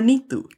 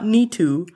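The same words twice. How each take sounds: First: The name has its native Punjabi sounds. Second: The name has anglicized English sounds. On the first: The speaker calls it right. "or Neetu" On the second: The speaker calls it wrong. "not Neetu"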